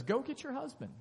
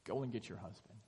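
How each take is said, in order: First: Much higher, a pointed abrupt order; blunt demand. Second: Quiet request. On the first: Preacher mocking Jesus bluntly ordering her to fetch her husband, high and abrupt. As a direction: fire it off like a jerk move. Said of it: "Jesus says". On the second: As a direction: say it low, like a calm aside. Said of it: "Jesus responds by saying". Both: Retold or imitated.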